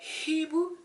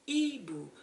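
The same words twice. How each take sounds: First: The initial H is pronounced aloud. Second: The initial H is silent. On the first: The speaker calls it wrong. "it's not a hibou" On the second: The speaker calls it right. "please don't pronounce it"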